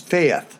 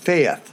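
First: It is said in a Scottish accent. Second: The same.

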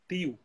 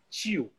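First: The t is dental, Pernambuco style. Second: The t is palatalized, like ch, Bahia style.

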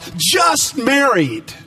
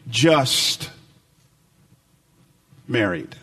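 First: It is said in a bright, celebratory tone. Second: It is said in a flat, weary tone. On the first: They have recently wed. "maybe on their wedding day, two words were sprayed across the back of their cars" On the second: They are merely married and nothing more. "those same words still apply, just said a different way"

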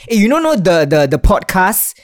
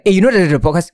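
First: The words are said out loud and clearly. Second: The words are mumbled and unclear.

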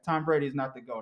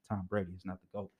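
First: It is said at normal speed. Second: It is said slowly.

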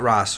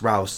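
First: The name rhymes with boss. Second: The name rhymes with house. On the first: The speaker calls it wrong. "Not Ross" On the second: The speaker calls it right.

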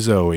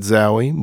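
First: The name is said as Zoe. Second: The name is said as Zowie. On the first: The speaker calls it right. "but it's really Zoe" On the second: The speaker calls it wrong. "We said Zowie"

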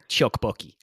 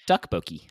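First: The word begins with a ch sound. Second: The word begins with a t sound. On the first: The speaker calls it wrong. "with like a ch" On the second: The speaker calls it right. "it's actually pronounced"

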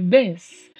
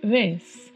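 First: It starts with a hard, full b sound. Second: It starts with a soft, gentle b sound. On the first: The speaker calls it wrong. "não é Bs" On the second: The speaker calls it right. "mas é um B assim mais suave"

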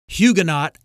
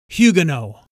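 First: The word is given an American pronunciation. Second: The word is given a British pronunciation. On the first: "the Americanized word Huguenot" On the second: "the British pronunciation is Huguenot"

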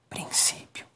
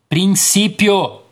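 First: The word is said very softly. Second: The word is said very loudly.

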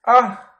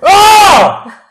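First: It is a weak, quiet shout. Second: It is a full, loud shout.

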